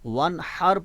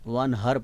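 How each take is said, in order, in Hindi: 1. h की ध्वनि गले से निकलने वाली, तनी हुई है। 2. h की ध्वनि सादी, साँस वाली है। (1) "उसका माना हो गया कुर्बानी" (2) "हा को आप उसके अपने मखरज से अदा नहीं कर रहे"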